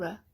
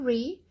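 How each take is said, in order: First: The syllable has a reduced schwa vowel. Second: The syllable has a full, clear vowel. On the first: The speaker calls it right. "just go r. There's your schwa" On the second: The speaker calls it wrong. "don't go re"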